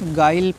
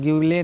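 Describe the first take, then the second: First: The u is silent after the g. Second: The u is pronounced after the g. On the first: The speaker calls it right. "गाइल पढ़ना है इसको" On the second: The speaker calls it wrong. "ग्यूले नहीं"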